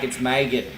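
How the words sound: It is said with an American accent.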